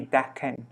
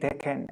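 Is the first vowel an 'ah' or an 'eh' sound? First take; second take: ah; eh. First: The first vowel is an 'ah' sound. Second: The first vowel is an 'eh' sound.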